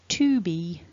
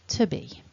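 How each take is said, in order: First: The t in 'to' is fully pronounced. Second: The t in 'to' is softened and weak. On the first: The speaker is being very formal. "if I'm being very formal, I could say" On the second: The speaker is talking casually in conversation. "probably in conversation I would say"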